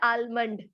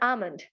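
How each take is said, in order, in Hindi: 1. इस शब्द में L ध्वनि का उच्चारण होता है। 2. इस शब्द में L ध्वनि मौन है। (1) "not almond" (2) "The accurate pronunciation of the word is called almond"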